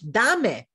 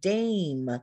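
First: It is said as two Spanish syllables, da-me. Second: It is one syllable with a long English a. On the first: "I have this pattern in my home language" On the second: "in English, ... you're going to say the long sound"

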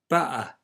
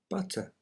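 First: The middle consonant is a glottal stop. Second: The middle consonant is a clear t sound.

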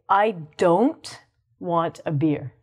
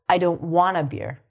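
First: It is said at a normal, careful speed. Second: It is said very fast with reduced words. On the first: "We would say" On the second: "in really fast English"

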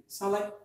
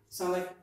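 No difference in how they are said.

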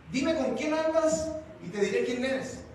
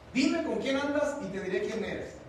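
The two takes are said the same way.

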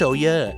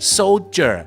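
First: The middle consonant sounds like d. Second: The middle consonant sounds like j. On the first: The speaker calls it wrong. "ไม่ใช่" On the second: The speaker calls it right. "ตัวดีจอจาน"

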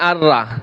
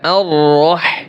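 First: The vowel after 'r' is an open 'a'. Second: The vowel after 'r' is a rounded 'o'. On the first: The speaker calls it wrong. "আর রা বলা যাবে না" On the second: The speaker calls it right.

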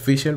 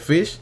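First: The name ends with an audible L sound. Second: The name ends without any L sound. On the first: This is the proper form of the name. "al final se le dice Fischl" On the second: This is the habitual nickname used on the channel. "Vamos a seguir llamándole Fish"

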